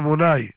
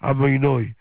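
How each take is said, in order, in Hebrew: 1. התנועה האחרונה נשמעת כמו 'ai'. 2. התנועה האחרונה נשמעת כמו 'oy'. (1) "הספרדים יגידו" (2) "לא צריכים להגיד"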